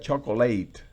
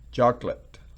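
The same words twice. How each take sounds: First: The stress is on the last syllable. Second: The stress is on the first syllable. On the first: It would be a verb. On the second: It is a noun.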